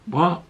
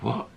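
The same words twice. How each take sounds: First: High, loud jolted question; startled what. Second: Said in the usual way. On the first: Retold or imitated. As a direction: snap awake in shock. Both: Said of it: "And he's like".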